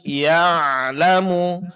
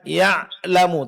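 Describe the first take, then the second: First: The ain sound flows openly without being held. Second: The ain sound is held back and choked. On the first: The speaker calls it right. "tapi ya'lamu" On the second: The speaker calls it wrong. "jangan suara tertahan"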